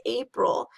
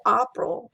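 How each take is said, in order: First: "April" with a modern ay sound. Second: "April" with an open ah, like "ahpril"; Middle English April. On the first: Teacher shows the modern vowel in "April". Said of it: "and then you say". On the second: Teacher shows the old vowel in "April". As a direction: say "April" with the vowel far back. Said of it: "If you say". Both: Shown as a demonstration.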